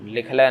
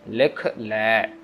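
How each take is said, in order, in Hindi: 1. दोनों शब्द एक साथ जुड़े हुए बोले जाते हैं। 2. दोनों शब्द अलग-अलग बोले जाते हैं। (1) "लिख ले नहीं" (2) "लिख ले अलग अलग हैं"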